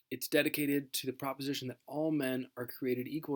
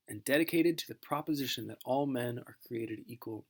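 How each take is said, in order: First: Said in the usual way. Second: Solemn recital of "dedicated to the proposition"; recited line. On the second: Shown as a demonstration. Teacher reciting the Address's famous line, solemn oration.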